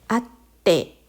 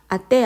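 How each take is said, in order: First: The t sound is held long before release. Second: The t sound is short with no hold. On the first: The speaker calls it right. "발음할 때도 꾹 눌러주셔야 되겠죠?" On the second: The speaker calls it wrong. "아떼 아닙니다"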